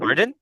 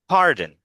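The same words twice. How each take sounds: First: The pitch rises at the end of the word. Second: The pitch falls at the end of the word. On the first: The speaker is asking for repetition. The speaker calls it right. "With a rising intonation" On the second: The request for repetition is unclear. The speaker calls it wrong. "that's falling when you say it like that"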